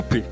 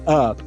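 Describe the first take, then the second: First: The vowel is not the central 'uh' sound. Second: The vowel is the central 'uh' sound. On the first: The speaker calls it wrong. "as pessoas falam up" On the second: The speaker calls it right. "mas é up"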